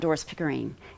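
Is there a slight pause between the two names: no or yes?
no. The two names run together without a pause. The speaker calls it wrong. "it's not"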